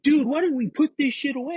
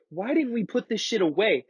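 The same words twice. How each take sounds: First: High, whiny imitation of the panicking friend; friend's whine mimicked, pitched way up; mocking whiny friend. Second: Said in the usual way. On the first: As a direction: squeak it out like a scared buddy blaming you. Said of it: "that's what he was saying to me". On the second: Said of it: "I was like".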